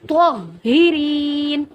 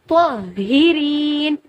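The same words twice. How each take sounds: Both takes have the same delivery.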